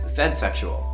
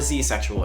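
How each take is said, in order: First: The word has a non-American pronunciation. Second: The word has an American pronunciation.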